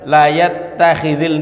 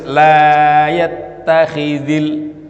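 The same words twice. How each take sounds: First: The vowel in 'la' is short. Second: The vowel in 'la' is long. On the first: The speaker calls it wrong. "Tidak boleh dibaca" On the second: The speaker calls it right.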